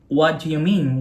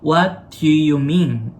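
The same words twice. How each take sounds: First: It is said fast and heatedly. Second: It is said slowly and deliberately.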